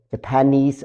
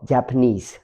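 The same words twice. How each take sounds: First: "Japanese" with the beat on PAN; stress on second syllable. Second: "Japanese" with the beat on JAP; stress on first syllable. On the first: Teacher offers learners one way of saying nationality, "Japanese" stressed on PAN. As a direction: say "Japanese" as juh-PAN-eez, weak first syllable. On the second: Teacher offers learners the other way of saying nationality, "Japanese" stressed on JAP. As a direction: say "Japanese" as JAP-uh-neez, weak middle syllable. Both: Shown as a demonstration. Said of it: "So Japanese or Japanese".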